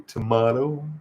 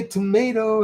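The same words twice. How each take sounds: First: "tomato" with a long AH in the middle; British-style tomato. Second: "tomato" with a long AY in the middle; American tomato. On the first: Contrasting ways to pronounce names, "tomato" with an AH sound. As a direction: say "tomato" as to-MAH-to, drawn out slowly. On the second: Contrasting ways to pronounce names, "tomato" with an AY sound. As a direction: say "tomato" as to-MAY-to, drawn out slowly. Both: Shown as a demonstration.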